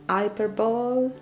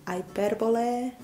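No difference in how they are said.

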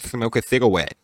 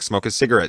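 First: It is said in a baby-like voice. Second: It is said in a normal adult voice.

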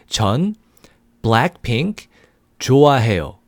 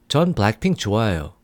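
First: It is said slowly. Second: It is said fast.

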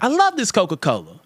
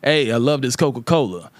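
First: It is said in a softened, white-sounding voice. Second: It is said in the speaker's own natural voice.

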